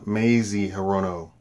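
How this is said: The name is said in an American style. "American pronunciation"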